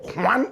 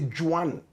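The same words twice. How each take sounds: First: The name is said the standard way. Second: The name is said the Ghanaian way. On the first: "correct pronunciation" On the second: "In Ghana, we say"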